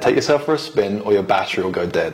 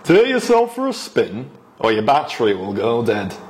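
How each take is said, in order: First: It is spoken in the speaker's usual accent. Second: It is spoken in a northern English accent.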